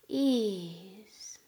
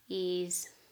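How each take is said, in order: First: It is said with feeling, maybe sighing. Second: It is said flatly, without feeling.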